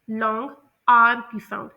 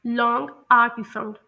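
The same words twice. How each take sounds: The two takes are said the same way.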